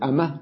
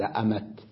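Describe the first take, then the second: First: The word ends in an h sound. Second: The word ends in a t sound. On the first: This is the common way of pausing on the word. "بدل ما يقول أمه" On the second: This is the less common but still eloquent way of pausing. "قال أمت"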